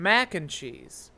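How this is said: The stress falls on the word mac. "She would emphasize mac"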